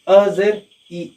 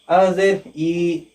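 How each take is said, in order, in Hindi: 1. आख़िरी स्वर छोटा है, खींचा हुआ नहीं। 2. आख़िरी स्वर लंबा है और खींचा हुआ है। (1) "आवाज को जो है नहीं खींचना है" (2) "तुलबा यहाँ पर भी गलती करते हैं"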